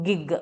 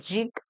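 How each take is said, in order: First: The word starts with a hard g sound. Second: The word starts with a soft j sound. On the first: The speaker calls it right. "ഗിഗ് workers എന്നാണ് pronounce ചെയ്യാനായിട്ട്" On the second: The speaker calls it wrong. "It's not ജിഗ്"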